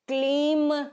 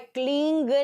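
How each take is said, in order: First: The word ends with an m sound. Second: The word ends with an ng sound. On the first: "क्लीम नहीं है" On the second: "क्लींग नहीं है"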